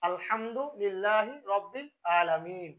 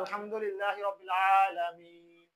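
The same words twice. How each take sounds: First: Alamin begins with a plain glottal stop. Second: Alamin begins with a deep throat consonant. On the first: The speaker calls it wrong. "অনেকজনে এই আইনকে উচ্চারণ করে হামজা" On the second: The speaker calls it right. "হলকের গলার মধ্যবর্তী থেকে আসে"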